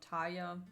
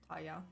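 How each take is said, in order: First: The stress is on the first syllable. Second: The stress is on the second syllable. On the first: The speaker calls it wrong. "not Taya" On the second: The speaker calls it right. "Like the emphasis on the ya"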